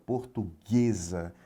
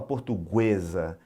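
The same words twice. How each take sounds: First: The U after the G is silent. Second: The U after the G is pronounced. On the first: The speaker calls it right. "o G U tem apenas um fonema... A gente não ouve o som do U" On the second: The speaker calls it wrong. "A gente não fala portuguesa"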